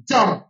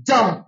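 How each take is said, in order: The two takes are said the same way.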